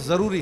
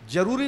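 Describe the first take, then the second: First: The word begins with a z sound. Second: The word begins with a j sound. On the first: The speaker calls it right. "है" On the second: The speaker calls it wrong. "नहीं है"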